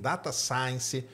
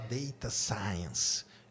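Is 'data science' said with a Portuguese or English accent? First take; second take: Portuguese; English. First: It is pronounced with Portuguese sounds. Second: It is pronounced with English sounds. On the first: The speaker calls it wrong. "eu falo tudo em português" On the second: The speaker calls it right. "O certo é falar data science"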